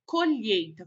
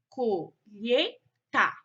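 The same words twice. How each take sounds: First: Said in the usual way. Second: "colheita" slowly split co-lhei-ta; syllable by syllable. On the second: Shown as a demonstration. Teacher showing pupils syllable division, "colheita" said in separated syllables. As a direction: break "colheita" into three separate syllables, pausing between. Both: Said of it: "foram separadas em sílabas".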